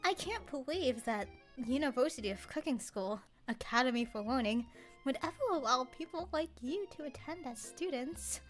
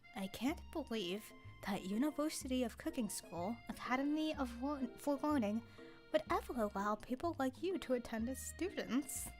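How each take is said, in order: First: The line is read in a passive-aggressive tone. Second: The line is read in a fairly neutral tone.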